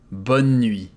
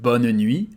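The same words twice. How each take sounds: First: The final e of bonne is silent. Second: The final e of bonne is voiced. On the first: "Put all the N together and it's going to be bonne nuit" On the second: "instead of bonne nuit, well, which is correct"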